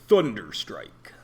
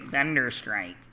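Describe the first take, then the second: First: The word is said in a bold, dramatic way. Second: The word is said in a flat, plain way. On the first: The speaker calls it right. "then it's awesome" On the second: The speaker calls it wrong. "it's lame"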